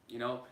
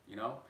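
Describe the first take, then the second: Both takes have the same delivery.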